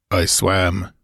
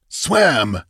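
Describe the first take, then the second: First: Said in the usual way. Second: Higher, indignant exclamation; angry exclamation. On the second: A narrator's reading. Master echoes the stranger's answer, angrily. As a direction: throw the word back in angry disbelief. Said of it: "exclaimed the master angrily".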